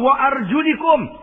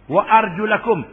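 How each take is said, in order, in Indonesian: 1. Vokal sebelum 'kum' adalah bunyi i. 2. Vokal sebelum 'kum' adalah bunyi a. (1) "dia baca dengan baris bawah" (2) "dibaca dengan baik di atas"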